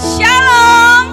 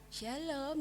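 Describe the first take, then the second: First: It is said energetically, with enthusiasm. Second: It is said flatly, without enthusiasm.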